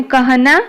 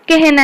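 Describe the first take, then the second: First: कहना with an open a before h; कहना said letter by letter, vowel unchanged; as spelt. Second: कहना said ke-h-na; कहना as spoken Hindi kehna; a becomes e. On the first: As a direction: read कहना as ka-ha-na. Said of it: "कहना कौन हे जिवो". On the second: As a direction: give कहना an e vowel before h. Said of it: "ए हे जिवो". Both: Shown as a demonstration.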